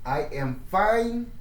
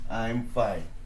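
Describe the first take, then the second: First: I am is said as two separate words. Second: I am is contracted into one syllable.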